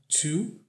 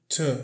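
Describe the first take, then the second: First: The vowel is a full oo sound. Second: The vowel is reduced to a schwa. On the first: "essa palavrinha aqui é pronunciada como to" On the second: "mas ela pode muitas vezes soar com t, com o som de a, que a gente chama de som do schwa"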